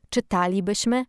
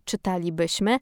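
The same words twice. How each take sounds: First: Czytalibyśmy stressed on the syllable TA: czy-TA-li-byś-my; stress on fourth-last syllable. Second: Czytalibyśmy wrongly stressed on the second-last syllable: czy-ta-li-BYŚ-my; misplaced word stress. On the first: Host showing listeners correct Polish accent, czytalibyśmy stressed on TA. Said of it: "na sylabę czwartą od końca". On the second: Host showing listeners the faulty version, czytalibyśmy stressed on BYŚ. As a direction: move the stress late, onto BYŚ in czytalibyśmy. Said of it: "a nie". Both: Shown as a demonstration.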